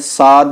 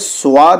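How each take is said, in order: First: It is said thin, with a plain open aa vowel. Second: It is said with a w glide before aa. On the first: "इसको बारीक नहीं पढ़ेंगे, साद नहीं बोलेंगे" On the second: "स्वाद नहीं बोलेंगे"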